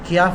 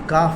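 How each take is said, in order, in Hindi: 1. k के बाद a से पहले y-glide आती है। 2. k के बाद सीधे सादा a आता है। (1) "क्याफ नहीं है। कुछ लोग क्याफ बोलते हैं।" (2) "ये काफ है"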